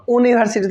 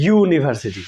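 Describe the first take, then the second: First: ইউনিভার্সিটি starting on a bare U vowel; university without Y. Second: ইউনিভার্সিটি opening on a consonant Y glide; Y-sound university. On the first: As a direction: say ইউনিভার্সিটি as oo-niversity. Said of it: "ইউনিভার্সিটি তো কই নাই". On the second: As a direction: say ইউনিভার্সিটি as yoo-niversity. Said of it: "উচ্চারণটা আসলে ওয়ার আছে". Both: Shown as a demonstration.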